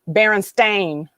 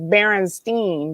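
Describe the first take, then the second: First: The last syllable rhymes with 'rain'. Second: The last syllable rhymes with 'line'. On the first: "like a stain on a rug" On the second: "That's what he called it"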